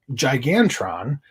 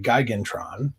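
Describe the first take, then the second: First: "Gigantron" starting with a J sound, jai-GAN-tron; soft-G pronunciation. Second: "Gigantron" starting with a hard G, guy-GAN-tron; hard-G pronunciation. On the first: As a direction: say "Gigantron" with a soft first G, like "giant". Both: Shown as a demonstration. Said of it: "or as I like to say".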